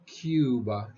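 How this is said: It is said with an English pronunciation. The speaker calls it wrong. "We don't do the U as in Cuba in English"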